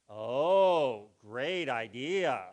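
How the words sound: It is said in a sarcastic, mocking tone. The idea is bad but feelings are spared. "we use something called sarcasm"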